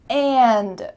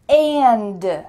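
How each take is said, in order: The two takes are said the same way.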